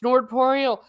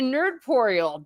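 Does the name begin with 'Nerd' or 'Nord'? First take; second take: Nord; Nerd. First: The first syllable sounds like 'Nord'. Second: The first syllable sounds like 'Nerd'. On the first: The speaker calls it wrong. "did I pronounce it like Nord?" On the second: The speaker calls it right. "Instead of Nerdporial"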